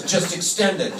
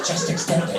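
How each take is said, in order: First: Said in the usual way. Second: Whispered echo; hushed copy of his order; whispering it after him. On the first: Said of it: "And he goes". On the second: Retold or imitated. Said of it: "She goes".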